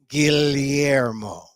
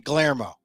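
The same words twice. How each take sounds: First: Each syllable is said slowly and carefully. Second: It is said with an English pronunciation. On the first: "I slow down and get every syllable" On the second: "if I was anglicizing it"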